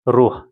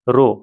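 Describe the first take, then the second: First: It ends with a strong h from the throat. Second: It ends on the vowel with no h. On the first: The speaker calls it right. "पूरा हलक से आवाज निकलना चाहिए। ह ह" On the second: The speaker calls it wrong. "रो नहीं बोलिएगा आप लोग।"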